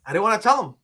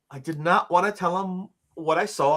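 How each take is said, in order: First: Said in the usual way. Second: "not" picked out firmly; stress on not. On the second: Real, not acted. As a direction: lean on "not" as the key word.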